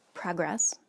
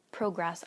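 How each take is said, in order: First: "progress" said PRAH-gress, American short o. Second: "progress" said PROH-gress, long o like go. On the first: Correcting herself on "progress", short o first. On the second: Correcting herself on "progress", long o second. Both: Shown as a demonstration.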